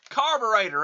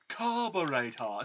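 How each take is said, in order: First: It is said in a Canadian accent. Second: It is said in a British accent. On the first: "Even the damn Canadians" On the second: "See, even even the British sound it"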